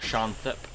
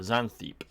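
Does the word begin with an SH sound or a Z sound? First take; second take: SH sound; Z sound. First: The word begins with an SH sound. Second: The word begins with a Z sound. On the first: "Or an S H, rather" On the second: "the English pronunciation of X, which is more like a Z"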